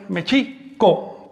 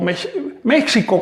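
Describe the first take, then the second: First: The stress is on the second syllable. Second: The stress is on the first syllable. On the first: This is the original Nahuatl name. The speaker calls it right. "el acento recae sobre la I" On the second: This is the Spanish form of the name. The speaker calls it wrong. "hubo un cambio de acento"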